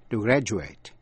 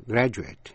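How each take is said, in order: First: Graduate as "GRA-joo-ayt"; verb ending "ate". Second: Graduate as "GRA-joo-it"; noun ending "it". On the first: Teacher replays the verb for learners, graduate ending in long A. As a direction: end graduate on a full "ay" vowel. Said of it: "nếu là verb đọc là A". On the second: Teacher replays the noun for learners, graduate ending in "it". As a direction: end graduate on a short, reduced vowel. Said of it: "nếu là danh từ đọc là it". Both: Shown as a demonstration.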